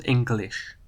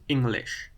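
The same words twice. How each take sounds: First: "English" with its usual sounds; normal English. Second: "English" read as Dutch spelling. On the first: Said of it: "not English". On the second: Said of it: "it would be pronounced English". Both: Shown as a demonstration.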